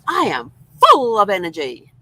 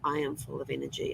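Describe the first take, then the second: First: It is said excitedly, with lots of energy. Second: It is said flatly, without much energy.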